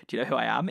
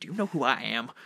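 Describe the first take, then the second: First: Mild rehearsal of Clav's voice; a hint of the vain Clav. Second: Lightly voiced vain Clav; muttered practice line as Clav; Clav's voice. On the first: A player rehearsing Clav's boast before the session, lightly voiced. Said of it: "in his voice over and over again". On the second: Player rehearsing Clav with the microphone muted, lightly voiced. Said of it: "I just sit there like".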